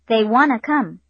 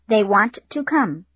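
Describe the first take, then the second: First: The sentence is said quickly with reduced words. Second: The sentence is said slowly with full words. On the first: "and then quickly" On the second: "first slowly"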